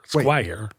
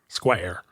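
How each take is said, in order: First: The name is said with the vowel of 'fire'. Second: The name is said with the vowel of 'hair'. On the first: This is how the name is spelled. "It's spelled Squire" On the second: This is how the bearer wanted it said. "he insisted people say Square"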